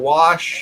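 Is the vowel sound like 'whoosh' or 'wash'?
wash. The word has a short 'ah' vowel, like wash. The common way of saying it. "instead of wash"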